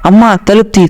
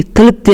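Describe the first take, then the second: First: Calling mom to open the door, angrily; a raised, angry yell at the door; higher retold shout. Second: Higher repeated shout at the door; angrier shout. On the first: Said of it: "గట్టిగా కోపంతో". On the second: Retold or imitated. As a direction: pitch jumps higher on the repeat. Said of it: "అని గట్టిగా అరిసా".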